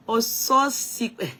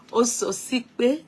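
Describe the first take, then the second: First: "Ososipe" sounded out slowly, syllable by syllable; careful first try. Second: "Ososipe" said slowly through a laugh, rising at the end; retry "Ososipe" slowly, laughing at yourself. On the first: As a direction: spell out "Ososipe" slowly, unsure of the name. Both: Shown as a demonstration. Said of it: "Bí mo ṣe pronounce orúkọ yín".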